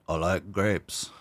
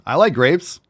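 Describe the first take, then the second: First: Slow, drawn-out, softer silly voice. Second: Higher, louder and upbeat; lively approval. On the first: Pretend. Streamer echoing himself about grapes, slow silly voice. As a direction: draw out each word in a put-on voice. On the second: Real, not acted. Streamer spotting a bowl of grapes, lively approval. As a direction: perk up with pitch lifted on LIKE. Same words, lively first take.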